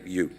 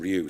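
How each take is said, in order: First: The name begins with a Y sound. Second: The name begins with an R sound. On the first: The speaker calls it right. "It's actually you" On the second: The speaker calls it wrong. "I didn't ask whether Ryu is the correct pronunciation"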